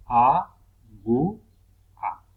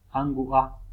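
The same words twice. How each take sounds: First: "A, gu, a" loud, with a pause after each syllable. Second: Said in the usual way. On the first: Shown as a demonstration. Teacher separating syllables at the puso, "A, gu, a" syllable by syllable. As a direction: say "A, gu, a" as three separate beats. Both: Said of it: "del puso al separar sílabas".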